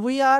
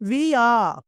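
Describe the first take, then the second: First: The vowel in 'we' is short. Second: The vowel in 'we' is long. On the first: The speaker calls it wrong. "అందరూ వి are అంటారు. వి కాదండి అది" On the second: The speaker calls it right. "డబ్ల్యూఈని వీలా పలకాలి"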